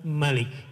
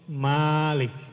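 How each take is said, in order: First: The vowel after the M is short. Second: The vowel after the M is long. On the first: It means king. "kalau raja" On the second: It means owner. "kalau pemilik"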